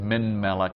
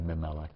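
First: "min melech" with the n of "min" fully sounded; full form. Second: "mimelech" run together, n swallowed into the m; assimilated n. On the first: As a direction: keep "min" and "melech" as two distinct words. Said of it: "if you said min melech". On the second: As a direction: say "mimelech" quickly as one word, no n. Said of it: "say that ten times rapidly". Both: Shown as a demonstration.

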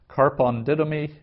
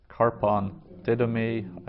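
First: "Karpon didomi" higher and louder, stress on "karpon"; Greek phrase pronounced. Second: "Karpon didomi" slow repeat with falling end. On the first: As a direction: announce "Karpon didomi" clearly. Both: Shown as a demonstration. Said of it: "Some vocabulary".

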